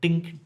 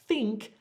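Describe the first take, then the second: First: The word starts with a d sound. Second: The word starts with a th sound. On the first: The speaker calls it wrong. "not dink" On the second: The speaker calls it right. "to say think properly, your top teeth actually rest on your tongue"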